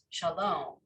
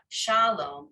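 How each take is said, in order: First: The stress is on the last syllable. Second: The stress is on the first syllable. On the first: The speaker calls it right. "it's shalom, right? The emphasis comes closer to the end" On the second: The speaker calls it wrong. "It's not shalom"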